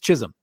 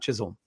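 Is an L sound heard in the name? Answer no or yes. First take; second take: no; yes. First: The name is said without an L sound. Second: The name is said with an L sound. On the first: The speaker calls it right. "but it's Chisholm" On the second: The speaker calls it wrong. "not Chisholm"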